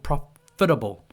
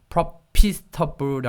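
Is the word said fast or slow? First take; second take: fast; slow. First: The word is said quickly, syllables run together. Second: The word is said slowly, syllable by syllable. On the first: The speaker calls it right. "이게 좀 빨라져요" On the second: The speaker calls it wrong. "profitable이 아니고"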